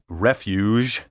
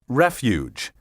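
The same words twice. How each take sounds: First: The g is a soft 'zh' sound. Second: The g is a 'j' sound. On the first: The speaker calls it wrong. "Instead, they say" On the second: The speaker calls it right. "Be careful to say"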